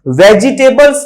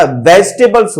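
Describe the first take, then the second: First: "वेजिटेबल्स" as ve-ji-TAY-buls, every syllable; full i and e in "वेजिटेबल्स"; wrong pronunciation. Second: "वेजिटेबल्स" as VEJ-te-buls; correct pronunciation. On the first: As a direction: spell out all four syllables of "वेजिटेबल्स". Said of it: "वेजिटेबल्स नहीं होता". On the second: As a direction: drop the i in "वेजिटेबल्स". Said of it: "वेजिटेबल्स होता है". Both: Shown as a demonstration.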